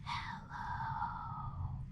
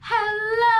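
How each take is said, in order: First: It is said very quietly. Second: It is said very loudly.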